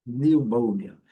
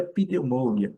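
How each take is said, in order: First: Loud, correct "Pneumonia" starting on N, niu-MÔU-nia; P mudo. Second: Wrong "pneumonia" with the P voiced, pi-niu-MÔU-nia; P pronunciado errado. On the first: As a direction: drop the P from "Pneumonia" and say it firmly. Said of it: "o P não é pronunciado". ("Pneumonia" forte, sem o P) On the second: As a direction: sound out the P at the start of "pneumonia". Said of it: "O que nós não podemos falar". ("pneumonia" com P falado, "pineumônia") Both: Shown as a demonstration.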